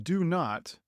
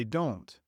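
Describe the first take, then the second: First: "do not" as two separate whole words; formal, uncontracted "do not"; full long form. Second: "don't" as one short syllable; casual contraction "don't"; contracted form. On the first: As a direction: give both "do" and "not" in full. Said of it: "Instead of". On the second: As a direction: merge do and not into "don't". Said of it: "we say". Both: Shown as a demonstration.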